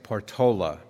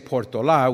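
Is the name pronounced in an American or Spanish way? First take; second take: American; Spanish. First: The name is pronounced the anglicized American way. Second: The name is pronounced the Spanish way. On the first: "we say Portola, because we're Americans. And so we anglicize everything" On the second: "we don't say Portola"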